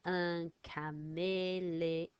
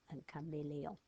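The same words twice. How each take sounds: First: "Un caméléon" said slowly, each syllable clear; slow French model of "Un caméléon"; slow model word. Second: Said in the usual way. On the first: Shown as a demonstration. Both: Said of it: "So it's got two A's".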